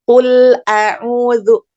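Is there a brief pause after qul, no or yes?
no. Qul runs on into a'udzu without stopping. "wasal ya, nyambung gitu"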